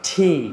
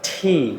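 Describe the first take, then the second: Both takes have the same delivery.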